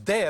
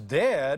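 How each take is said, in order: First: The word is said in an excited voice. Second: The word is said in an embarrassed voice. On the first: The child wants to show something. "I'm so excited I want to show you something" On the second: The child feels embarrassed in public. "you're embarrassing me in front of my friends"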